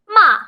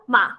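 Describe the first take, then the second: First: The pitch falls sharply from high to low. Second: It is short and light, with no tone. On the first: It means to scold. "going down really hard" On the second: It marks a question. "No tone whatsoever, no intonation, no high pitch"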